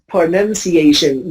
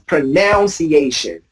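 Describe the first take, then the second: First: The second syllable sounds like 'nun'. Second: The second syllable sounds like 'noun'. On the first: This is the form the dictionary gives. The speaker calls it right. "they don't pronounce that word as pronunciation" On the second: This is how many native speakers say it. The speaker calls it wrong. "They pronounce it as pronunciation. That way, the pronunciation is not right"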